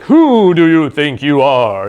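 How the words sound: It sounds powerful and commanding, like a wizard.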